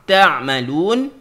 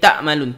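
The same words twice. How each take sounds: First: The middle consonant is a pharyngeal ain sound. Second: The middle consonant is a glottal stop. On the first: The speaker calls it right. "Padahal ta'malun tu dia pergi ke huruf ain sebenarnya" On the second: The speaker calls it wrong. "dia jadi ta'malun, ta'malun. Ta'malun tu dia pergi hamzah"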